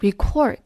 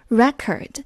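First: It is said the way the verb is. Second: It is said the way the noun is. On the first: It means to record something. "它做动词的发音我们会更熟悉，读作record" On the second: It names a record or means record-breaking. "作为形容词和名词的时候读作record"

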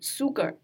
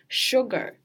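First: The word begins with a plain s sound. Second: The word begins with an sh sound. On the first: The speaker calls it wrong. "有很多同学会把它读成sugar，不对啊" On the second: The speaker calls it right. "应该是sugar"

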